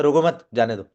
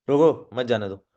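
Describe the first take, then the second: First: रोको मत joined, then जाने दो falling; break after मत. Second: रोको apart, मत जाने दो joined; break after रोको. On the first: Trainer giving the other meaning, break after मत. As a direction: pause only after मत, drop जाने दो. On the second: Trainer contrasting two meanings for learners, break after रोको. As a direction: say रोको, pause, then मत जाने दो. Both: Shown as a demonstration. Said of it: "और एक होता है".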